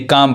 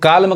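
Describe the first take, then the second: First: The L sound is silent. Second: The L sound is pronounced. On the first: The speaker calls it right. "यानी काम पढ़ाएगा" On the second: The speaker calls it wrong. "इसको काल्म कहेंगे गलत पढ़ा जाएगा"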